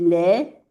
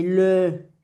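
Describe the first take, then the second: First: "le" said as "lé", lips spread in a smile; smiled vowel in LE. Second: "le" with a closed, rounded fish-mouth vowel. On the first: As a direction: open "le" into a smiling "lé". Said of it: "el le era sonrisa". («le» como «lé», con sonrisa) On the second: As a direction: round the lips tight on "le". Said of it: "le era como un pececito cerrado". («le» con la boca cerradita, como un pececito) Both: Shown as a demonstration.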